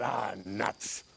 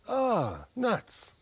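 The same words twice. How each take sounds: First: It sounds disappointed and annoyed. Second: It sounds delighted and pleased.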